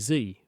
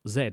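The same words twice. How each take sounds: First: The letter is said the American way, zee. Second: The letter is said the British way, zed.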